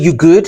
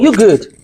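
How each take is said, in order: First: The voice rises at the end, like a question. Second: The voice falls at the end, like a statement. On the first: The speaker is asking whether the person is okay. "That means that is is everything okay with [name]?" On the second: The speaker is saying there is nothing to worry about. "That means that don't worry about it"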